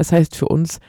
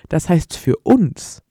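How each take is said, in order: First: It is read in a plain, ordinary voice. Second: It is read in a dramatic movie-trailer voice.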